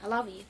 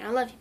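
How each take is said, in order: First: "love you" turned into "lava you"; punning lava pronunciation. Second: Said in the usual way. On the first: Shown as a demonstration. Explaining the volcanoes' pun, "love you" pronounced "lava you". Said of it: "but it was like". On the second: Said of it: "it was their way of saying".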